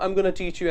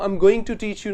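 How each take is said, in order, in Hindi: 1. 'going to' घटकर 'gonna' हो जाता है। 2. 'going to' दो पूरे शब्दों की तरह बोला जाता है। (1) "मैं बोलता हूं I am गोना" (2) "I am गोइंग टू teach you ना बोल के"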